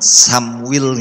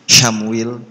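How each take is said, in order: First: The name begins with a plain 's' sound. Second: The name begins with an 'sh' sound. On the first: "damel sin" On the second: "wonten sing damel shin"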